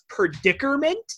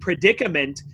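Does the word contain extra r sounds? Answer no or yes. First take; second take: yes; no. First: It is said with two extra r sounds. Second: It is said without extra r sounds. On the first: The speaker calls it wrong. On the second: The speaker calls it right.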